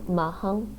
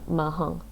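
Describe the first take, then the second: First: The syllable has a mid falling tone. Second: The syllable has a low falling tone. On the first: "mid falling" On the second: "low falling"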